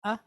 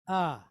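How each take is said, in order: First: "Ah" cut very short. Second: "ah" held as an open, drawn-out vowel; long ah. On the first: Teacher demonstrating the difference, short "Ah". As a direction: say "Ah" as a quick, abrupt vowel. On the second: Teacher demonstrating the difference, long "ah". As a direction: draw "ah" out with a falling tone. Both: Shown as a demonstration. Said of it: "You hear the difference between the two".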